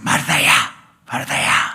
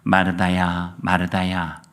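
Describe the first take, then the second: First: It is said in an irritated, testy tone. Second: It is said in a gentle, soothing tone.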